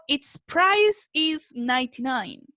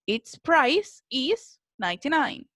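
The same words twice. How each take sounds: First: "Its price is ninety-nine" read slowly, word by word; slow teacher example read aloud; slow dictation. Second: "Its price is ninety-nine" said slowly with a rise on "price"; careful teacher model of the sentence; slow modelling voice. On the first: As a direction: spell it out slowly for the class. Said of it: "Y yo digo". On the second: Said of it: "Si se fijan acá ocupamos el its". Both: Shown as a demonstration.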